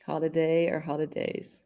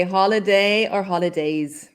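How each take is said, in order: First: Soft repeat. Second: Said in the usual way. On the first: Shown as a demonstration. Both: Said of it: "we can say holiday or holidays".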